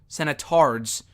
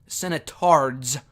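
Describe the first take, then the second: The two takes are said the same way.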